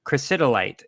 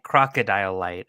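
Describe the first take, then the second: First: It sounds like the mineral name chrysotile. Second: It sounds like the words crocodile light. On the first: "one of the strains of asbestos is called" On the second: "he kept pronouncing it"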